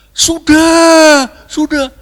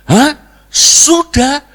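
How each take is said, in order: First: High, loud, stretched-out answer; crowd shouting back. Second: High, loud incredulous question; mock outraged disbelief. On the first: Acted. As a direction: shout as a whole congregation in chorus. (seruan jemaat lantang dan panjang) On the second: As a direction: throw their answer back, shocked. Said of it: "Abu Nawas gebrak meja". (kaget dibuat-buat, tinggi dan keras)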